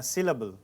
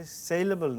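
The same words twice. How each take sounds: First: সিলেবল with a short "si" at the start; corrected pronunciation. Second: সেলেবল with a long "say" at the start; mispronounced syllable. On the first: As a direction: say সিলেবল as SIL-uh-bul, like English "syllable". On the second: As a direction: say সেলেবল like English "saleable", SAY-luh-bul. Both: Shown as a demonstration. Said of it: "pronunciation একটু problem আছে".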